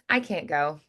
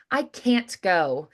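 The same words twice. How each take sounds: First: The T in 'can't' is soft and dentalized. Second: The T in 'can't' is not softened. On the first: The speaker calls it right. "more of that like dentalized T sound" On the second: The speaker calls it wrong. "So it's not"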